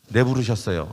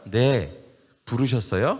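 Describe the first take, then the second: First: It is said without a pause after 네. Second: There is a short pause after 네.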